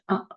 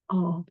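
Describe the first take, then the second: First: A shorter, fronter vowel made higher up. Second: A low, open, back vowel close to O. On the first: "le «Ah» normal est plus court" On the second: "plus bas"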